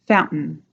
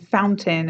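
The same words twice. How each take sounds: First: The middle consonant is a glottal stop. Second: The middle consonant is a clear T sound. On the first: "that little glottal stop in there" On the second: "Instead of saying fountain"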